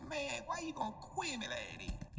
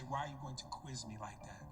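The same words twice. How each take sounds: First: Higher, drawn-out garbled mumble. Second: Low, plainly articulated words; clear translation. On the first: Retold or imitated. Mocking what he said instead, slow slurred mumble. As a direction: slur the words into mush, slowly. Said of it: "But he said". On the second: Shown as a demonstration. Explaining what he was trying to say, clearly articulated. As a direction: spell out each word intelligibly, pitched down. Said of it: "He was trying to say".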